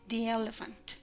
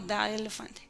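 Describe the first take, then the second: First: The word 'the' is said like 'thee'. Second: The word 'the' is said like 'thuh'. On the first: The speaker calls it right. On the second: The speaker calls it wrong.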